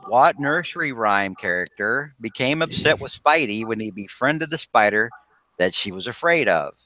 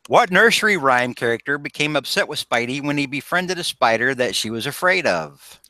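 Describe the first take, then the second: First: It is read at a slower pace. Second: It is read at a quicker pace.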